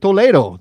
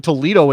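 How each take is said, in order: First: It is pronounced with a Spanish accent. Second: It is pronounced with an English accent. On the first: The speaker calls it right. "You say Toledo" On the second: The speaker calls it wrong. "You don't say Toledo in Spanish"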